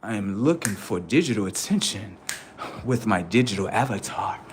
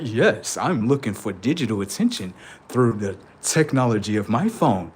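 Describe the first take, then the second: First: Low, soft robotic monotone. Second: Low, flat robotic monotone. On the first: Pretend. Comedian voicing a robot seeking attention, low soft drone. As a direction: drone it like a chatbot. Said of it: "robotic settings". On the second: Retold or imitated. Comedian mocking a phone-addicted robot, low robotic drone. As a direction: talk like a machine. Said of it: "If a robot was like".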